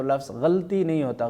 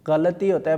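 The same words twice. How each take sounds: First: غلطی said with a plain hard g; wrong pronunciation. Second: غلطی said with a clear gh sound; correct pronunciation. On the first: (غلطی کا غلط تلفظ) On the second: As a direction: say غلطی as ghalati, gh in the throat. (غلطی کا درست تلفظ) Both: Shown as a demonstration.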